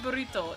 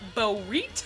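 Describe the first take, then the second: First: It is said in a plain, ordinary accent. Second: It is said in a strong Mississippi accent. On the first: This is not how the grandmother says it. "It's not a burrito" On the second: This is how the grandmother says it. "She wants the burrito"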